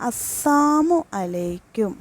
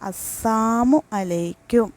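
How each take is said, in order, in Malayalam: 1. salamu-വിൽ നിന്ന് la ഒഴിവാക്കുന്നു. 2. salamu-വിൽ നിന്ന് la ഒഴിവാക്കുന്നു.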